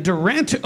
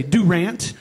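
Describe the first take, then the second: First: Said in the usual way. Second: Durant said as "doo-RANT"; local pronunciation variant. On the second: Retold or imitated. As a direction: say Durant with a full "doo" first syllable. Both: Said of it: "or as some people say".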